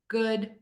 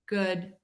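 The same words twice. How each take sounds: First: The vowel is said with slightly rounded lips. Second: The same.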